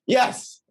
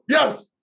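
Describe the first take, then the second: First: It is said with mild, held-back enthusiasm. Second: It is said with loud, full enthusiasm. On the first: "not even showing you the true the true level of enthusiasm" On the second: "How about that?"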